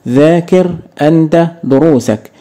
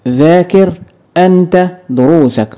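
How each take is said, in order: Both takes have the same delivery.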